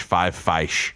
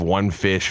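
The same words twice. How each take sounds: First: "feish" with the vowel of "five"; long I in "feish", as in sci-fi. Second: Said in the usual way. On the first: Shown as a demonstration. Host demonstrates the plural of fish, "feish" with a long I. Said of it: "pronounced as though with a Y, like in sci-fi". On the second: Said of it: "instead of saying fishes or fish".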